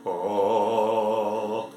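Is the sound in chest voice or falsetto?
chest voice. A deep sound in full chest voice. "Voici un son grave"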